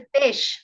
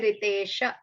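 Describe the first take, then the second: First: The name ends on a consonant, no final vowel. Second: The name ends with a short final a vowel. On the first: The speaker calls it right. "we stop there" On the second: The speaker calls it wrong. "We don't say Ritesha"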